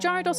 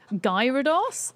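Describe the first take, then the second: First: The name begins with a soft G sound. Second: The name begins with a hard G sound. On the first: "am I saying Gyarados wrong?" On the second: "It's with a hard G"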